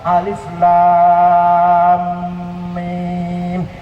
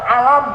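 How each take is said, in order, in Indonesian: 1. Setiap nama huruf diucapkan terpisah dan dipanjangkan. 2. Hurufnya disambung menjadi satu kata pendek. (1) "kata ilmu tajwid bukan alam bacanya, alif lam mim" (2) "Kalau nggak ada ilmu tajwid, saya baca alam"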